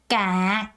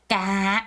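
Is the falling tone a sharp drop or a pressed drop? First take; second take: pressed; pressed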